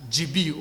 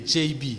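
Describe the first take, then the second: First: G B said as "jee bee"; G B with an ee in both letters; mistaken pronunciation. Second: J B said as "jay bee"; J B as English "djay bee"; correct English pronunciation. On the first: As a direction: make the beginner's slip "jee bee" for G B. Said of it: "certaines personnes prononcent". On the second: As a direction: give J B an ay, then an ee. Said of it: "au lieu de". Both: Shown as a demonstration.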